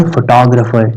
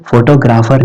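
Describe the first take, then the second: First: फोटोग्राफर as fuh-TOG-ruh-fer; correct pronunciation demo. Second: फोटोग्राफर as FO-to-GRAA-far; wrong pronunciation demo. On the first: Teacher correcting students from today on, फोटोग्राफर as fuh-TOG-ruh-fer. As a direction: stress TOG in फोटोग्राफर, reduce "graa" to "gruh". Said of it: "क्या बोलेंगे आज से". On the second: Teacher showing students what to avoid, फोटोग्राफर as "foto-graafar". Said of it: "इसको फोटोग्राफर नहीं बोलेंगे". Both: Shown as a demonstration.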